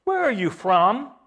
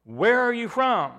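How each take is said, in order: First: "Where" high, questioning rise at the end; higher-pitched question, leaning on "Where"; questioning, stress on WHERE. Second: High-pitched question, falling on "from"; "from" stressed with a falling close; emphatic, stress on FROM. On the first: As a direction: ask it with weight on "Where", lifting at "from". Quotes Pilate's question to Jesus, repeated. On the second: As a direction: repeat it pointedly, pitched up, landing on "from". Repeats Pilate's question for emphasis. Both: Acted.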